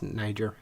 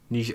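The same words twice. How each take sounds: First: The name is pronounced the English way. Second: The name is pronounced the French way. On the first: "I think it's Niger in English" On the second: "That's French"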